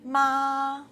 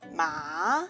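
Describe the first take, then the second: First: The pitch stays high and level. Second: The pitch rises from middle to high. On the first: "High-level tongue, the first tongue" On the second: "Rising tongue, the second tongue"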